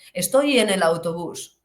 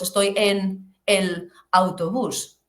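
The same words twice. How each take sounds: First: The words run together without breaks. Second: Each word is said separately, with breaks. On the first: The speaker calls it right. "Como nosotros" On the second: The speaker calls it wrong. "No decimos"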